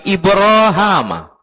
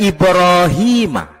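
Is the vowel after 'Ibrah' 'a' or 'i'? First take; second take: a; i. First: The vowel after 'Ibrah' is 'a'. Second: The vowel after 'Ibrah' is 'i'. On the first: This is the reading in the speaker's Quran. "tapi Ibrahama" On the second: This is the other reading. "Bukan Ibrahima"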